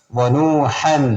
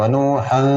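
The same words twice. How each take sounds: First: "വനൂഹൻ" with a clear final n; clear tanween. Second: "വനൂഹൻ" with a hummed, unclear final n; wrong tanween. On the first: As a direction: end "വനൂഹൻ" on a clearly sounded n. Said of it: "അവിടെ തൻവീന് വെളിവാക്കണം". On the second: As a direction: blur the n ending "വനൂഹൻ". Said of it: "എന്ന് ഓതാൻ പാടില്ല". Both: Shown as a demonstration.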